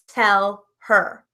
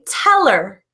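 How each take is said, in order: First: The H sound in her is pronounced. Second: The H sound in her is dropped.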